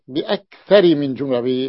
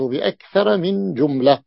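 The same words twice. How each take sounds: First: The word aktharu ends with an i vowel. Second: The word aktharu ends with an a vowel. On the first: The speaker calls it wrong. "نطقت بأكثر من جملة، يعني لم يتنبه إلى أن الكلمة هذه ممنوعة من الصرف" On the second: The speaker calls it right. "وعلامة جرها الفتحة. فالصحيح"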